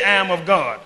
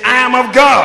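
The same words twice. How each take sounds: First: Said in the usual way. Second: Bold shout, high and very loud. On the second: Shown as a demonstration. Preacher urging the congregation to repeat it with boldness, bold shout. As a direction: belt it out with boldness. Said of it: "Say it with some boldness".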